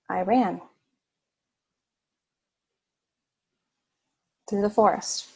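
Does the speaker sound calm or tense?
calm. It is said in a relaxed, pleasant tone. The run was enjoyable. "it was a more of a pleasurable run"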